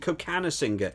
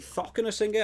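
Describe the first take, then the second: First: The name begins with a k sound. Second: The name begins with a th sound. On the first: "I definitely heard the pronunciation Kokanasinger" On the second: "I have heard commentators say Thockenessinger"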